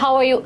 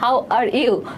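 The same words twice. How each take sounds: First: It is said in a native English-style accent. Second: It is said clearly in a Bangladeshi-style accent. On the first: This is how native speakers say it. "ওনাদের মতো অ্যাকসেন্টে কথা বলি না যে এরকম" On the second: This is how we said it, easy to understand. "আমরা তো বলতাম যে"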